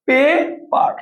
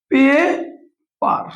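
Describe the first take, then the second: First: Said in the usual way. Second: পেপার drawn out slowly as পে-পার; পেপার stretched into two clear syllables; split into syllables. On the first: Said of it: "পেপার, দেখেন". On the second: Shown as a demonstration. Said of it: "দুইবার উচ্চারণ করতে হয়".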